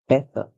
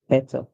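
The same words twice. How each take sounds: First: The middle consonant is a clear t sound. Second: The same.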